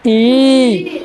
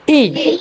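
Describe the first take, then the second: First: ई held long and slow. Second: ई said briefly; short i. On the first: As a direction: draw ई right out. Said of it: "आणि मोठी ई". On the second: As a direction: cut ई short. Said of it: "उच्चार करताना आपल्याला कमी वेळ लागते". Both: Shown as a demonstration.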